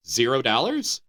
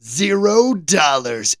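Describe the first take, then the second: First: Said in the usual way. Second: Slow, stretched "Zero dollars" in disbelief; amazed repeat. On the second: Real, not acted. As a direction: drag it out, can't believe it's free.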